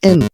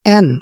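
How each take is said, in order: First: It starts with an i vowel, like 'in'. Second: It starts with an open e vowel. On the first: The speaker calls it wrong. "دي حرف جر إن" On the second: The speaker calls it right. "الحرف ده اسمه N"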